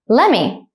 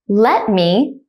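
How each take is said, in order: First: The two words are run together quickly. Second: The two words are said slowly and separately. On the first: "at a normal speed, like a native speaker" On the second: "one time slowly"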